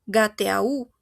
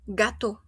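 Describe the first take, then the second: First: "gateau" read letter by letter as ga-te-a-u; slow mispronounced "gateau" with separate E, A, U; spelled-out vowels. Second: "gato" as ga-TO, ending on one O; French gâteau, two syllables closing on O; final O sound. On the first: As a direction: sound every vowel in "gateau": ga-te-a-ú. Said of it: "No digo gateau". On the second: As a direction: say "gato" with the written vowels merged into a single o. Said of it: "No digo gateau, no, gato". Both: Shown as a demonstration.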